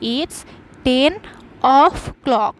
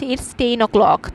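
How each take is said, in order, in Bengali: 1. clock-এর আগের শব্দটি পূর্ণ 'of'। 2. clock-এর আগের শব্দটি সংক্ষিপ্ত 'o'। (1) "এক্স্যাক্ট প্রিপোজিশন অনুযায়ী তাহলে বলতাম it's ten অফ clock" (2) "অফ উচ্চারণ না করে আমরা বলছি ইটস টেন ও ক্লক"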